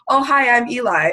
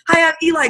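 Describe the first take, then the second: First: It is said with low, flat energy. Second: It is said with high, excited energy.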